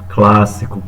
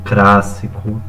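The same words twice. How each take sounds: First: The cluster is pronounced with an L sound. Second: The cluster is pronounced with an R sound. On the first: The speaker calls it right. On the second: The speaker calls it wrong.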